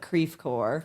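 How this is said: The name is said with an American pronunciation. This is how locals say the place name. "it's been Americanized, so we call it Creve Coeur"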